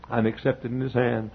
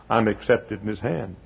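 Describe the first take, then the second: No difference in how they are said.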